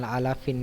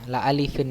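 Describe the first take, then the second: First: The second word has an a vowel in the middle. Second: The second word has an i vowel in the middle. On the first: The speaker calls it wrong. "bukan la alafin" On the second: The speaker calls it right.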